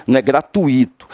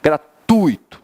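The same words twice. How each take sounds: First: Gratuito with stressed I, the wrong way; teacher showing the common error. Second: Said in the usual way. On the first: Shown as a demonstration. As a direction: show the mistaken gratuito. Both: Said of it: "O I quase não aparece".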